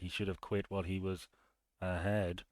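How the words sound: It is enunciated to mark it as a joke. The speaker is making a pun. The speaker calls it right. "That's how you do it"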